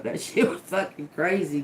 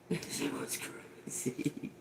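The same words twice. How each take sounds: First: Said in the usual way. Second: Whispered. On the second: Real, not acted. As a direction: drop to a breathy whisper on the repeat. Repeats the line, now whispered.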